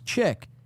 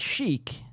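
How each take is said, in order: First: The word begins with a 'ch' sound. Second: The word begins with an 'sh' sound. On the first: The speaker calls it wrong. "I pronounced it as chick" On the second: The speaker calls it right. "Really, it's chic"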